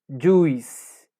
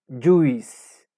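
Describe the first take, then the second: Both takes have the same delivery.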